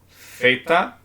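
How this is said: It begins with a th sound, as in think. This is how it is said in Spain. "para a Espanha"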